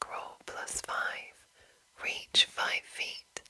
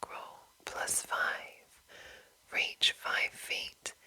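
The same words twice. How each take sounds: The two takes are said the same way.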